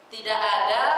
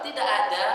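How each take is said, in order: First: "tidak ada" with the Indonesian d; the wrong d in "tidak ada"; spoiled d. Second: The correct d in "tidak ada"; good d. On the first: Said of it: "sudah rusak huruf dalnya". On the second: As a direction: say "tidak ada" with the proper back d. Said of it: "berarti itu masih bagus". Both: Shown as a demonstration.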